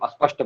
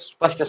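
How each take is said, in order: First: A short vowel is added before the s sound. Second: The word begins directly with the s sound. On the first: The speaker calls it wrong. "ऐसे पूरा हम अस्पष्ट बोल रहे हैं" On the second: The speaker calls it right. "स्पष्ट में आधा ही स है ना"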